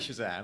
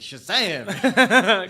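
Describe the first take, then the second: First: It is said flatly, without energy. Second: It is said loudly, with exclamation.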